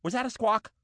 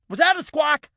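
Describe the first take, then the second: First: Said in the usual way. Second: Higher and louder, stress on "that"; second "Was that a squawk?" louder and higher; alarmed repeat. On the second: Real, not acted. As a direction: repeat it, now worried. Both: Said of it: "Yes, it was".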